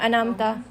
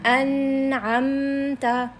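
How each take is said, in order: First: The word is rushed without holding the n. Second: The voice rests briefly on the n and m. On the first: The speaker calls it wrong. "जल्दी से नहीं पढ़ना। अनामता हम पढ़ते हैं ना ऐसे, अनामता ऐसे नहीं पढ़ना।" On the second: The speaker calls it right. "हर लेटर पे हमने सुकून देना है।"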